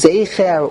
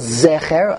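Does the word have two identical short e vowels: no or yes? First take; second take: no; yes. First: The word does not have two identical short vowels. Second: The word has two identical short e vowels.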